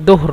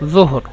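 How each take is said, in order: First: The word begins with a d sound. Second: The word begins with a j sound. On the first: This is the regional dialect form. "এখানে দোহর না" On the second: This is the standard form.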